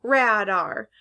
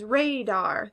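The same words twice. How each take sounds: First: "radar" as RAD-ar; short A. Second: "radar" slowly as RAY-dar; long A. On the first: Teacher explaining the tug of war, "radar" as rad-ar. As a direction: say "radar" with the a of cat. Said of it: "like a". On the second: Teacher explaining the tug of war, "radar" as ray-dar. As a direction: say "radar" with the a of day. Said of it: "can sound like A or". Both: Shown as a demonstration.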